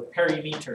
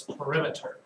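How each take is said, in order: First: "perimeter" said as "perry-meter"; alternative syllable accent. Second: Said in the usual way. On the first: Shown as a demonstration. Offering students another way to accent it, "perimeter" as "perry-meter". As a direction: say "perimeter" in two parts, PERI-METER. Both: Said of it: "syllable you accent".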